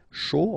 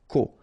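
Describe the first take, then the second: First: The syllable starts with a sh sound. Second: The syllable starts with a k sound. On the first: This is the usual reading of these letters. The speaker calls it wrong. "Normally we should pronounce it cho" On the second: This is the exception used in this word. The speaker calls it right. "in that case we pronounce it co"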